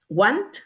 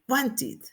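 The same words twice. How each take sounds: First: WANT rising, ending on T; final T sound. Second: WANTED in two syllables, "wan-tit". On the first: Teacher pointing out the last sound, final T sound. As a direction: let the T of WANT be heard. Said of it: "el sonido final es". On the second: Teacher modelling the past, -ed as "it". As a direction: add "it" after WANT in WANTED. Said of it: "la vamos a pronunciar como it". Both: Shown as a demonstration.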